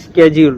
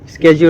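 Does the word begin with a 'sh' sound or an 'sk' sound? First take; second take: sk; sk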